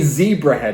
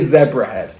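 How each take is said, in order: First: The name is said the American way. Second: The name is said the speaker's non-American way.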